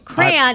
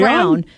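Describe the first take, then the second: First: It is said with two syllables, cray-on. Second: It sounds like one syllable, crown.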